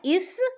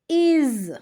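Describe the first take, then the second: First: The word ends with a hissing s sound. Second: The word ends with a buzzing z sound. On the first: The speaker calls it wrong. "Not is" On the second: The speaker calls it right. "we will pronounce this word as is"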